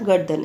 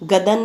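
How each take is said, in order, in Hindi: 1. यह शब्द d से पहले r के साथ बोला जाता है। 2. यह शब्द बिना r की ध्वनि के बोला जाता है। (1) "किस तरह से बोलेंगे इसको बेटा" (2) "गदन नहीं बोलेंगे।"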